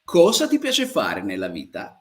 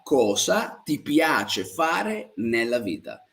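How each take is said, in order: First: Said in the usual way. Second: Slow, spaced-out Italian question; slow model question. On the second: Shown as a demonstration. Teacher repeats the question for learners, slowly and spaced out. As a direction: draw out each word so learners can follow.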